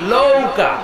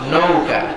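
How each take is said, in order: First: The word begins with an L sound. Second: The word begins with an N sound. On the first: This is how people in a certain region say it. The speaker calls it wrong. "পাবনাতে এরা ন উচ্চারণ করতে পারে না... নয়ের জায়গায় বলে ল" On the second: This is the standard pronunciation. The speaker calls it right. "আসলে হবে কি?"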